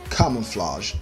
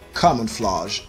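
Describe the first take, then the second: First: It is said in a British accent. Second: The same.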